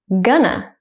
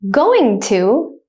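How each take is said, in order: First: It is said quickly at natural speed. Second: It is said slowly and carefully. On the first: "then at a native speaker speed second" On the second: "I will say it slowly first"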